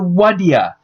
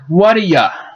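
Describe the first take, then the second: First: The phrase collapses into two short blended syllables. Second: The words blend, and 'do' shrinks to a weak sound. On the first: "If it is reduced further, it could even be taken to what ya" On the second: "When it is removed, it sounds like what a ya"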